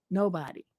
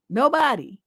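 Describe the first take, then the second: First: "Nobody" dropped low and much softer; quiet lower afterthought; soft trailing repeat. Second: Said in the usual way. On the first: Real, not acted. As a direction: let the echo fall away quietly. Repeats word, dropping away.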